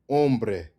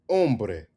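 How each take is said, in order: No difference in how they are said.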